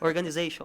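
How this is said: The ending sounds English, like '-station'. The speaker calls it right. "É só lembrar no PlayStation"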